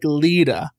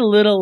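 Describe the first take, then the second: First: The word ends with an open A vowel. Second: The word ends with a clear L sound.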